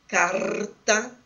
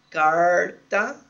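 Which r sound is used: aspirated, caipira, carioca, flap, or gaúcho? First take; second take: gaúcho; caipira. First: The r is said as in gaúcho speech. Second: The r is said as in caipira speech. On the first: "como em algumas variedades do dialeto, da variedade sociolinguística praticada no Rio Grande do Sul" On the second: "como na variedade caipira"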